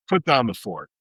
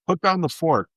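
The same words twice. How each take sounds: First: Said in the usual way. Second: Mock-cheery, higher repeat of "put down the fork"; mocking the slogan. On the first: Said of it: "Yeah, put down the fork". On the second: Shown as a demonstration. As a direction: parrot the lazy advice sarcastically. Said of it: "Saying putting down the fork is about the laziest".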